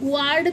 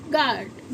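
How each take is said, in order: First: A w sound follows the g. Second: No w sound follows the g. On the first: The speaker calls it wrong. "इसे हम ग्वार्ड तो नहीं पढ़ते ना" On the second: The speaker calls it right. "तो क्या बोलते हैं इसको"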